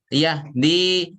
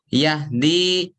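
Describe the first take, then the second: No difference in how they are said.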